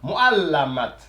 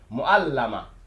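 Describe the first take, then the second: First: The word ends with a clear t sound. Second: The word ends on a vowel, no t. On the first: "il faudra lire le T" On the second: "lorsque l'intéressé ne veut pas, bien sûr, lire le, la dernière lettre, voilà, il suffira tout simplement de, euh, de mettre cela comme muet"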